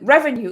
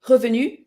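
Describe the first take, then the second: First: It is said with an English accent. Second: It is said with a French accent. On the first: The speaker calls it right. "it sounds very different than revenue" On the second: The speaker calls it wrong. "memorize it with a French accent"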